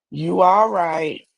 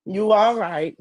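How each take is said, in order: First: Drawn out, slow, unimpressed; slow dismissive. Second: Said in the usual way. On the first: Shown as a demonstration. Showing women how to answer a man, slow and dismissive. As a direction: shrug him off slowly and coolly. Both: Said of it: "Just say".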